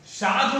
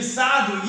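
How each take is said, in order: First: साधु said as शाधु; wrong-example साधु beginning with sh; स turned into श. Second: साधु with a clear initial s; teacher's correct take of साधु, s sound. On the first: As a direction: start साधु on sh to show the error. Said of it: "साधु नहीं होता है". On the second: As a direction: model साधु starting on स, not श. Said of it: "ये सही है". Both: Shown as a demonstration.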